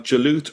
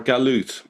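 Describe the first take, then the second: First: The word begins with a J sound. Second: The word begins with a hard G sound. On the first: "You can actually pronounce the, the letter either uh, as a J" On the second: "or a G. For example, if you go to Egypt, they still pronounce it Galut"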